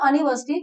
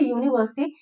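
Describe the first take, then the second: First: The word starts with a plain vowel sound. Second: The word starts with a 'y' sound. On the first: The speaker calls it wrong. "This is not अनिवर्सिटी" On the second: The speaker calls it right. "This is यूनीवर्सिटी so there is no vowel sound"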